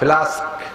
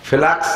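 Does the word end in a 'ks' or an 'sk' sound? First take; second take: sk; ks. First: The word ends with an 'sk' sound. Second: The word ends with a 'ks' sound. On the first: The speaker calls it right. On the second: The speaker calls it wrong.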